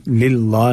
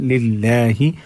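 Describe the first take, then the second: First: लिल्लाह with a dark, heavy ला; wrong thick lam. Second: लिल्लाहि with light front ला and final "hi"; thin lam. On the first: (लिल्लाह का लाम मोटा) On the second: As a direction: keep लिल्लाहि thin and end on हि. (लिल्लाहि का लाम बारीक) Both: Shown as a demonstration. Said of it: "लिल्लाह नहीं पढ़ना है".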